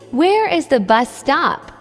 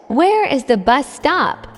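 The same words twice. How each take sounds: The two takes are said the same way.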